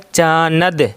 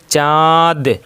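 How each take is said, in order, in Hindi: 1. 'न' को पूरे व्यंजन की तरह बोला जाता है। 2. 'न' सिर्फ़ स्वर का अनुनासिकीकरण है। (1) "लिखा गया है चानद" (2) "हम यहाँ गुन्ना करके पढ़ते हैं"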